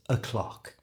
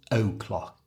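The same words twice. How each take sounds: First: "o'clock" begun with a soft schwa, "uh-clock"; "o'clock" with a relaxed first vowel. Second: "o'clock" with a careful full "oh", slowed; "o'clock" over-pronounced as "oh-clock". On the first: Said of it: "change the O to a schwa sound". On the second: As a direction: stress the "oh" in "o'clock" too much. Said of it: "That sounds strange". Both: Shown as a demonstration.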